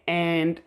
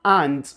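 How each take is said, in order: First: And with a flat American A. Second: And with an open British A. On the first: Teacher models the American and. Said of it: "this way". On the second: Teacher models the British and. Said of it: "but British people would say". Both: Shown as a demonstration.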